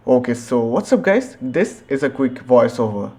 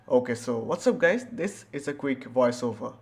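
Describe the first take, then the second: First: Louder, crunchy sample of the mic at full gain; max gain mic test. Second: Softer, clean low-gain recording; soft, clean sample of the mic at low gain; low gain mic test. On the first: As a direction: push it hot so the mic distorts. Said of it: "One when the gain knob is at the maximum". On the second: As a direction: read it quietly for a clean low-gain take. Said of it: "two when the gain knob is at twenty and at forty". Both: Shown as a demonstration.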